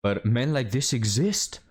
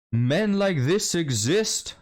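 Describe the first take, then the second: First: Said in the usual way. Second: Much higher, slow, drawn-out mock shock on "Men like this exist."; exaggerated sarcastic alarm; mock dramatic. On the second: Shown as a demonstration. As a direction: stretch "Men like this exist." like a scandalized gasp.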